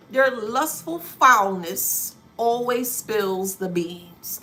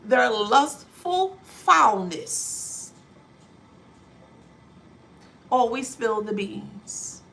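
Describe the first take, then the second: First: Lustful foulness drawn out slowly; slow, weighty declaration; slow emphatic read. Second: Lustful foulness stretched very slow; slow, heavy repeat for emphasis; slower emphatic repeat. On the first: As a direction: lean on every word, slow. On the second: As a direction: repeat it slower, leaning harder. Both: Shown as a demonstration. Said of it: "Let me repeat that".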